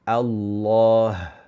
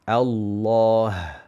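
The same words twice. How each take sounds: No difference in how they are said.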